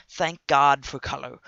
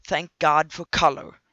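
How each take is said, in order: Both takes have the same delivery.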